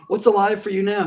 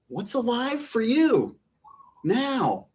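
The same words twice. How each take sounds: First: It is said in a plain, casual way. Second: It is said in a marked, exaggerated way.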